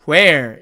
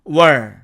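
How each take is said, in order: First: The h is sounded with a full vowel. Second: The h is dropped and the vowel is weakened. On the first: "관계부사로 사용될 경우에는 where 이렇게 됩니다" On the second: "h는 탈락되고 n은 발음이 약화된 까닭에 발음이 air에서 어로 바뀌게"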